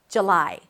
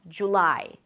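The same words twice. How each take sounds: First: The first vowel is reduced to a schwa. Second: The first vowel is a quick oo sound. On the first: "a lot of people drop the first vowel to a schwa" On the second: "In British pronunciation, by the way, you'll hear more of an oo sound"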